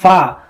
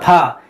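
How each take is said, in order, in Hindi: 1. यह ऊपर के दांत और नीचे के होंठ से शुरू होता है। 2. यह महाप्राण p की आवाज़ से शुरू होता है। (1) "ऊपर का जो दांत है नीचे वाले होठ पर जब आप लगाएंगे" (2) "हिंदी की तरह फा"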